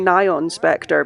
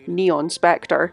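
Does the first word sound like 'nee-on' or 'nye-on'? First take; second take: nye-on; nee-on. First: The first word is said like 'nylon' without L. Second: The first word is said like 'neon'. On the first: "I'm saying Nyon Spectre because it's spelt like N Y O N, which is like the word nylon without the L" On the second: "I've heard some people pronounce that name Neon Spectre"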